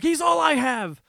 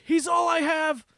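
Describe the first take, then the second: First: High, loud desperate wail; desperate cry. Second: High, pleading wail; pleading cry. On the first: Boy begging the gunman to spare his friend, loud desperate wail. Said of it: "He's like". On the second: Boy begging the gunman to spare his friend, high wail. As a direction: beg for your friend's life. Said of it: "He said something like". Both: Retold or imitated.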